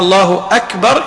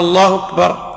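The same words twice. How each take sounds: First: The h and k sounds are kept separate. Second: The h sound runs straight into the k. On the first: "بدال أن يقول الله أكبر" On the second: "يعني يضرب الهاء بالكاف"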